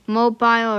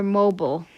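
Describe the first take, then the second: First: Said in the usual way. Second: "mobile" said as MOH-bull; misspelled mobile. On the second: Shown as a demonstration. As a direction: swallow the second vowel of "mobile", rhyming it with noble. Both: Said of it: "Accidentally spelled mobile to mobile".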